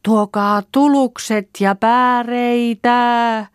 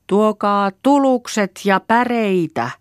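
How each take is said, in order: First: Very high, loud, long-held holler; louder calling out. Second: High, drawn-out call for help; first try at hollering home. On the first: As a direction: stretch every word into a distant call. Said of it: "Koitetaan lujemmasti". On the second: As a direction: shout it slowly across the woods. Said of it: "ruvetaan huutamaan". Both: A narrator's reading.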